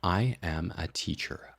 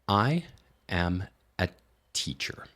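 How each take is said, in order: First: Faster still, slightly choppy between the words. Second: Very slow, with every word fully separated. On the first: "speed it up again. It still sounds a little bit awkward" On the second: "each of those words is being completely compartmentalized, and it sounds really awkward at that speed"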